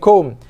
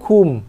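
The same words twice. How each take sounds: First: The vowel shifts away from a pure u. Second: The vowel stays a pure u sound. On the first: The speaker calls it wrong. "Bukannya kum" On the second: The speaker calls it right. "kena kekalkan bunyi bacaan tu"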